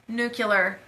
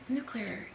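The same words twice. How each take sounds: First: It is said with an extra syllable, like nucular. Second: It is said as new-clear, without the extra syllable. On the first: The speaker calls it wrong. "please don't say nuclear" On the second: The speaker calls it right. "it's nuclear"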